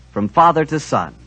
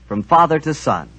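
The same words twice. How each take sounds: The two takes are said the same way.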